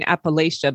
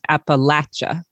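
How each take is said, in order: First: It uses the outsider pronunciation of the name. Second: It uses the local pronunciation of the name. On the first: The speaker is not from the region. The speaker calls it wrong. "I'm saying it wrong. I'm saying Appalachia" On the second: The speaker is from the region. The speaker calls it right. "but you're saying Appalachia"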